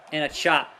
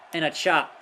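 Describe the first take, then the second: No difference in how they are said.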